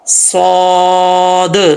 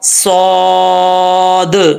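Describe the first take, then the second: First: The final d ends with a bouncing echo. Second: The same.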